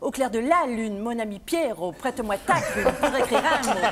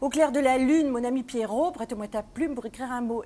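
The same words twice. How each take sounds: First: The stress is moved to other syllables. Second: The stress falls in its usual place. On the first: This sounds modern. "si on veut que ça fasse moderne, il faut dire" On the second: This is the old-fashioned way. "avant, on disait"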